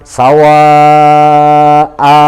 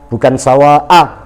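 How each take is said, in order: First: The final vowel is held for two beats. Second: The final vowel is clipped short. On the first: The speaker calls it right. "agak panjang" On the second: The speaker calls it wrong. "terlalu pelit"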